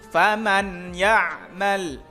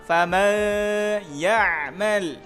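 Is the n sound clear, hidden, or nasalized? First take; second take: clear; hidden. First: The n is pronounced clearly and distinctly. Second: The n is pronounced faintly, half hidden. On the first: "Contoh yang jelas" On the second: "atau samar"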